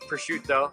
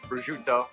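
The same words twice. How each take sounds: First: The word begins with a P sound. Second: The word begins with a B sound. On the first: This is how the speaker himself says it. "I call it pr- prosciutto" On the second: This is how many other people say it. "a lot of guys say it with a B"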